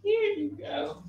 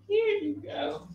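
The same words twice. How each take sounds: First: It is said cheerfully, with a smile. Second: The same.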